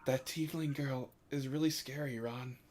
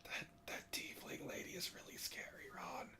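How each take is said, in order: First: Hushed but voiced and audible; a softened voice meant to be overheard; stage whisper. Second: Very soft, barely audible whisper. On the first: Shown as a demonstration. Player repeating the tiefling remark for Vox, stage whisper. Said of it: "sorry, I'll stage whisper". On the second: Acted. Player whispering to Ron about the scary tiefling lady, true whisper. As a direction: whisper it so low it's lost. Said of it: "I couldn't hear you".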